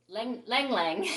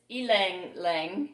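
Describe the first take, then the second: First: The name begins with an L sound. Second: The name begins with a vowel sound. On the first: The speaker calls it wrong. "I always thought this was lang lang lang" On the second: The speaker calls it right. "but it's ilang lang"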